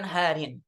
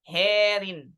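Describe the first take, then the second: First: The first vowel is an open a sound. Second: The first vowel is tilted toward an e sound. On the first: "di riwayat Hafs" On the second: "dengan memiringkan bunyi fathah"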